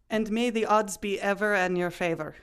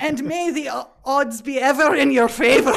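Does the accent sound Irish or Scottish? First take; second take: Irish; Scottish. First: It sounds like a mild Irish accent. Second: It sounds like an angry Scottish accent.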